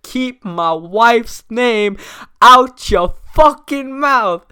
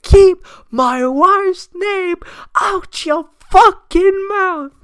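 First: Slow, rising mock threat, louder at the end; imitating an angry warning. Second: Much higher, slow, strained mock yell; louder mock yell. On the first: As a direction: quote the slap line as a hammed-up warning. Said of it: "He's like". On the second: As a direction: bellow it like he's losing it. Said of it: "louder this time".

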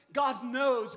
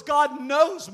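First: Said in the usual way. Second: God knows, pushed much louder; loud pulpit emphasis; louder emphatic repeat. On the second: Real, not acted. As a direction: hit it harder the second time.

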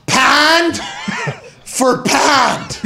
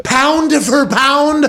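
First: High, booming Pittsburgh "pand for pand"; Pittsburgh accent. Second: Slow, high "Pound for pound" with full OW vowels; standard pronunciation. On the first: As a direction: shout it in halves with Pittsburgh vowels. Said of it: "I'll say it again". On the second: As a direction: carefully round out both "pound"s, stretched like an announcer. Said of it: "That's a Pittsburgh accent". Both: Shown as a demonstration.

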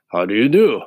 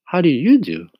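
First: Husky scarecrow greeting, louder; a friendly straw man asks. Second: Put-on higher, polite little girl; a polite child returning the greeting. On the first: Acted. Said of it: "answered the scarecrow". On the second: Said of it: "replied Dorothy politely".

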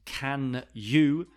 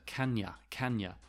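First: "Can you" as two clear words; careful full form. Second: "kanya" run together with weak "ya"; softer, falling "kanya"; linked as one word. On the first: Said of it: "is pronounced like one word". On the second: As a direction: blend into "kan-yuh". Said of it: "pronounced like one word". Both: Shown as a demonstration.

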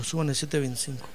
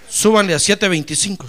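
First: "súbanle" said again lower and softer; softer, lower echo of the boss; quiet repeat. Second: "Súbanle" said loud and commanding; louder boss command; firm order. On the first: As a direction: repeat the order under the breath. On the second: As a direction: announce the raise boldly. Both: Retold or imitated.

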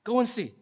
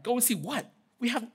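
First: Firm, pitched-up order; crisp instruction with falling end; commanding. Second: High, rising incredulous question; mock-baffled sarcasm, WHAT lifting at the end; sarcastic. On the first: Acted. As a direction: give it as a serious command. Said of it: "commanding here". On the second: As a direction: toss the order back sarcastically. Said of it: "they didn't answer with our sarcasm".

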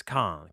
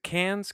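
First: "Cannes" said like "kahn", final s silent; alternative pronunciation. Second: "Cannes" said like "cans", higher and rising; questioned pronunciation. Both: Shown as a demonstration. Trying out the name's pronunciation.

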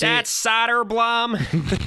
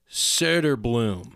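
First: Thick Chicago accent, high, slow and loud. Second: Söderblom, slow, with the rounded Swedish ö; Swedish pronunciation. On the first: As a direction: drawl Soderblom like a Chicago sports caller. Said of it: "with a thick Chicago accent". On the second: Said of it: "the umlaut over the O is pronounced like". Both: Shown as a demonstration.

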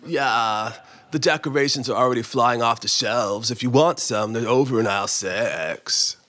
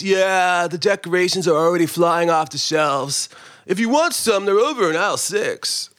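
First: Lower, creakier vocal fry voice; bored creaky-voiced clerk, lower; vocal fry guy, redone. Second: Creaky vocal fry employee voice; lazy creaky-voiced clerk; vocal fry guy. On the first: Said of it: "Vocal fry guy. Is that all right?". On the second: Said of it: "That's my, um, what do they call it? Vocal fry". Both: Shown as a demonstration.

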